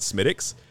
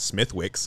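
First: The name is said the Dublin way. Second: The name is said the American way. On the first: The speaker calls it right. "but in Dublin they pronounce it Smithwick's" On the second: The speaker calls it wrong. "if you're an American, pronounce Smithwick's"

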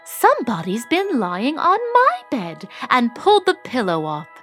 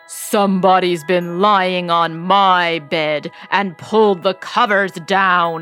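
First: It is said in a middle-pitched voice. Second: It is said in a big, deep growl.

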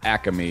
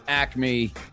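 First: It is said in a Philadelphia accent. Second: It is said in a general American accent.

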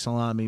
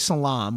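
First: The word ends with its final vowel. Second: The word ends without its final vowel. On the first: This is how the speaker's family says it. "We say salami" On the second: This is the clipped Italian-American way of saying it. "we don't say salam"

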